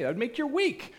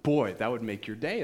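First: Excited lift. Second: Said in the usual way. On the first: Shown as a demonstration.

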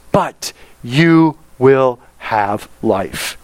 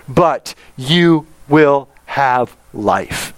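First: "but you will have life" very slow and deliberate; capital BUT again. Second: "but you will have life" very slow, BUT stressed; capital BUT. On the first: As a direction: savour each word, but weighted. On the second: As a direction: lean hard on but, drag the line out. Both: Shown as a demonstration. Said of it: "think of that but in all capital letters".

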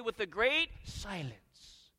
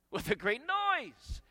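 First: "silence" set apart after a held "great"; deliberate misquote. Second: "noise" drawn out, high and emphatic; slow, raised voice landing hard on "noise"; emphatic correction. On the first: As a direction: misquote it, pausing just before "silence". Deliberate misquote before the correction. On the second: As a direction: correct it with a big, stretched "noise". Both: Shown as a demonstration.

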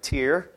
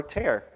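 First: "Tear" pronounced like tier; "Tear" rhyming with deer. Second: "tear" with an open eh vowel; "tear" rhyming with air. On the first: Teacher shows two readings of one spelling, "Tear" as teer. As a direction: say "Tear" with an ee vowel, as in crying. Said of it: "The other can be an emotional response". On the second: Teacher contrasts word readings for the class, "tear" as tare. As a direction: say "tear" as in ripping paper, like tare. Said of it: "One can mean to rip a piece of paper". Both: Shown as a demonstration.

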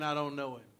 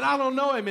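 First: Said in the usual way. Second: Loud, higher, angry retelling of Peter's denial; cursing denial. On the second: Retold or imitated. Peter denying Jesus to a teenage girl, loud and cursing. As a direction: bark the denial like a cornered man swearing. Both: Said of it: "and he cursed".

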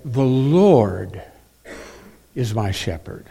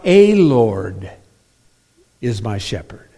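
First: "The Lord" with weight on the article; stressing "The", the one Lord. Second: "a Lord" with "a" said long as "ay"; wrong version. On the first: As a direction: lean on "The" in "The Lord is my shepherd". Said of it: "the definite article, "the". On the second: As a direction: mark "a Lord is my shepherd" as the wrong reading. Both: Shown as a demonstration.

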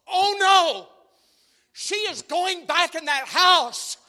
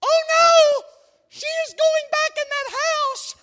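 First: Much higher, louder hammed-up panic; mock panic. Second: Much higher, much louder hammed-up shriek; husband imitating wife panicking at a thriller; wife's mock panic. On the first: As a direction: shriek at the screen in mock fright. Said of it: "this is me. I'm like this". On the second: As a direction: scream at the screen as the wife. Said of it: "Here goes Angie. She's like".

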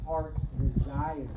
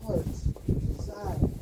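First: Said in the usual way. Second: Slow, breathy whisper of the phrase; whispered echo. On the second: Shown as a demonstration. Preacher echoing the verse to his congregation, whispered slowly. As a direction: let it fall to a slow hush.

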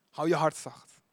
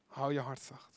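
First: Said in the usual way. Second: Soft repeat. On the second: Shown as a demonstration.

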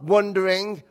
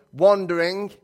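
First: "wandering" with a short uh in the first syllable; wrong vowel in wandering. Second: "wandering" with a broad A in the first syllable. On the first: Correcting the hymn title, "wandering" mispronounced as "wondering". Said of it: "That's with an A, not wandering". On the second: Giving the hymn title correctly, "wandering" with an ah. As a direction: say "wandering" with an open ah. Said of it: "That's with an A". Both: Shown as a demonstration.

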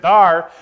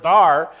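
First: "thar" said as the Southern drawl of there, loud and falling. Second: "thar" with a drawn Southern r, loud and falling. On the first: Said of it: "'cause he said". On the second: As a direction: say "thar" like a Disney Southerner, dropping at the end. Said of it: "when they said the word". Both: Retold or imitated.

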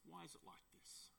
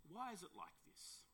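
First: Very soft, almost to oneself; hushed question. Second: Softly asked, high start on "why"; soft question. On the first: Preacher pondering why believers give in, very hushed questioning. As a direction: let it sink to a near murmur. Repeats the question more quietly. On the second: Preacher asking why believers give in, soft questioning. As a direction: pose it softly, lifting "why" then falling. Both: Real, not acted.

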